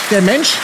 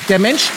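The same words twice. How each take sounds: The two takes are said the same way.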